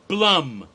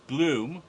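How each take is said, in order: First: The vowel is a short u sound. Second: The vowel is a long oo sound. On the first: The speaker calls it right. "Rhymes with plum" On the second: The speaker calls it wrong. "his name isn't pronounced Bloom"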